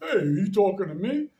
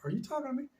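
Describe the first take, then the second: First: It sounds aggressive and confrontational. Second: It sounds puzzled and baffled.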